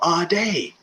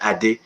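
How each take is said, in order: First: The name is said with a Western pronunciation. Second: The name is said with a Nigerian pronunciation. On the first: "If you're in the Western world" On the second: "If you're from Nigeria"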